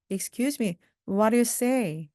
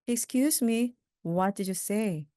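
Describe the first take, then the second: First: Quick linked speech. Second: Said in the usual way. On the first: Shown as a demonstration. Teacher models the faster question for learners, quick and linked. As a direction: say it faster, linking "what do you say". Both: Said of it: "좀 빠르게 하면요".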